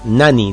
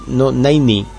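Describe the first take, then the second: First: The middle t and a vowel are dropped. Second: The middle t sound is clearly pronounced. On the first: "nani directamente, nani, como suena" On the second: "no 90"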